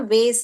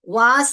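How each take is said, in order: First: The vowel is an 'ay' sound. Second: The vowel is a long 'ah' sound. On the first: "American English" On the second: "हमारा British English"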